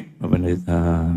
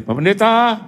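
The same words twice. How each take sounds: First: Much lower, softer and slow "Pak Pendeta"; friend's weak troubled call. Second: Higher, bright call of "Pak Pendeta"; friend's usual cheerful call. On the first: Friend phoning the pastor in trouble, low and faint. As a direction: drag the words out like someone ashamed. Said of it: "Tapi ini". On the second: Friend calling the pastor as usual, cheerfully. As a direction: call out like a friend inviting to dinner. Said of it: "Biasa dia". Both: Retold or imitated.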